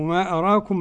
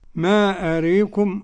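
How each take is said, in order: First: The long a vowel stays fully open. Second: The long a vowel leans toward e.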